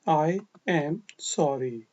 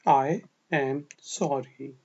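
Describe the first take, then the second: The two takes are said the same way.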